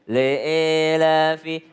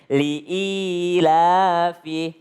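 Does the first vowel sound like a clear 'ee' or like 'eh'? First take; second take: eh; ee. First: The first vowel drifts toward an 'eh' sound. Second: The first vowel is a full, spread 'ee' sound. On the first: The speaker calls it wrong. "kalau tidak terbuka seperti e ... Itu kedengarannya i tapi nggak sempurna i-nya" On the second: The speaker calls it right. "Harusnya li'ilafi"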